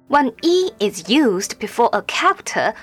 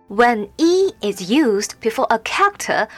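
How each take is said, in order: The two takes are said the same way.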